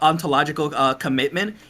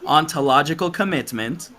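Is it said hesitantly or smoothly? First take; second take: hesitantly; smoothly. First: It is broken up by a hesitation. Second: It is said smoothly without hesitation.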